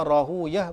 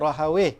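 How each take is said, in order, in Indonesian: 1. Nama itu berakhir dengan bunyi -uyah. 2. Nama itu berakhir dengan bunyi -awih. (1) "maka dibaca Rahuyah bagi uh, uruf para muhaddithin" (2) "mungkin ahli lughah membacanya begitu, macam baca Sibawih"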